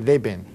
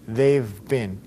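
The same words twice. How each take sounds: First: The words are squeezed even shorter than the contraction. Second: The words are contracted to two syllables. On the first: The speaker calls it wrong. "cut it down even more" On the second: The speaker calls it right. "That's how you pronounce it"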